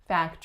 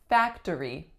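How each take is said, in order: First: The middle syllable is dropped, leaving two. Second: All three syllables are pronounced. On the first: "most people will say factory" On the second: "looks like it should be factory"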